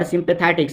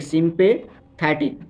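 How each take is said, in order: First: Said in the usual way. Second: sympathetic drawn out slowly and clearly; teacher spelling out sympathetic by ear, slowly; slow, careful demo. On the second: Shown as a demonstration. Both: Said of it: "teacher repeats word slowly".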